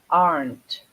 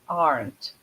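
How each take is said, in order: No difference in how they are said.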